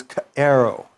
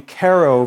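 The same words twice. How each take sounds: First: Plain unaspirated "Q'ero."; Quechua pronunciation. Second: Aspirated "Q'ero"; Quechua pronunciation. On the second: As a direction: split "Q'ero" sharply at the start. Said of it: "like saying". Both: Shown as a demonstration.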